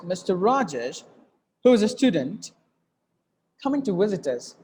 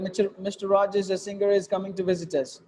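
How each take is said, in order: First: Group Mister Rajesh, who is a student, then coming to visit us; phrased in thought groups. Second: Fast, run together without pauses; wrong way, no phrasing; rushed wrong reading. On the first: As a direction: pause after Rajesh and after student. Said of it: "you have to read like this". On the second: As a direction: rush "a singer, is coming to visit us" with no breaks. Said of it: "That's not the way you should read it". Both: Shown as a demonstration.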